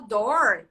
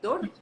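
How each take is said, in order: First: The R is pronounced in the English way. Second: The R is pronounced in the Portuguese way. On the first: The speaker calls it right. "você ensinar a pessoa a falar door" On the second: The speaker calls it wrong. "e não dor"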